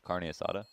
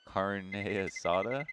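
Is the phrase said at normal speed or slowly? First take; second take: normal; slowly. First: The phrase is said at normal conversational speed. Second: The phrase is said slowly and deliberately.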